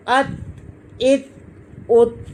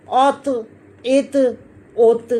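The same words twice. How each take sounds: First: "अत, इत, उत" with a thin t held shut; light "अत, इत, उत" with closed endings; t without bounce. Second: "औत, इत, उत" with a thick t echoing as "tuh"; full-mouthed "औत, इत, उत" with released endings; heavy bouncing taw. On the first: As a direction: stop each t of "अत, इत, उत" without echo. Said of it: "ये नहीं हिलेगी". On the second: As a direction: rebound the emphatic t in "औत, इत, उत". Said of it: "खूब हिलाकर जुम्बश देकर पढ़ेंगे". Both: Shown as a demonstration.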